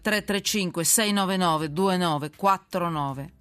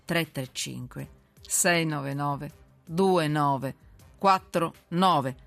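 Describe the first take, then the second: First: The number is read at normal speed. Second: The number is read more slowly.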